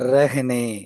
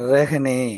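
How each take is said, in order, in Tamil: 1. முதல் உயிரெழுத்து 'e' ஒலியை நோக்கி சாய்கிறது. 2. முதல் உயிரெழுத்து 'e' ஒலியை நோக்கி சாய்கிறது.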